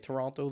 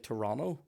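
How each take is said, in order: First: The second T is clearly pronounced. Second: The second T is dropped and silent. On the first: The speaker calls it right. "they don't say Toronto" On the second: The speaker calls it wrong. "they say Toronto ... doing silent letters"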